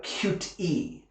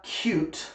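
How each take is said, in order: First: Cute-e with an extra "ee" on the end; mistaken added vowel. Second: Cute as a single syllable, ending on the t; correct one-syllable word. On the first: Teacher imitating learners' mistake, cute-e with an added vowel. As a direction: say cute-e slowly as "kyoot-ee". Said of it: "people will make the mistake". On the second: Teacher giving the correct word, cute in one syllable. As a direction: say cute with no vowel after the t. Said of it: "make the mistake and say". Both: Shown as a demonstration.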